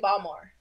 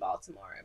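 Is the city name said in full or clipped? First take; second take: clipped; full. First: The name is clipped, the local Baltimore way. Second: The name is said in full, three syllables.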